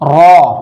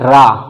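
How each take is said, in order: First: The letter is pronounced heavy, with a full vowel. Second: The letter is pronounced light, with a thin vowel.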